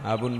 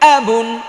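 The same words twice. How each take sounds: First: The word is said softly and shyly. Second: The word is said loudly and clearly. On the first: The speaker calls it wrong. "আপনি লজ্জা করে যদি" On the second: The speaker calls it right. "জোরে বললে"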